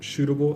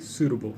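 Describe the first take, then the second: First: The first sound is not a clear S. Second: The first sound is a clear S. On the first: The speaker calls it wrong. "You said what is most suitable activity?" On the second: The speaker calls it right. "more of an S sound"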